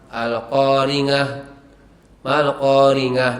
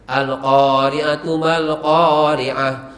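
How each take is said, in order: First: The consonant is a nasal 'ng' sound. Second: The consonant is a throat sound 'ain'. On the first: The speaker calls it wrong. "al-qaringah mal-qaringah misalnya" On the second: The speaker calls it right. "bacaan seperti makharijul hurufnya yang benar"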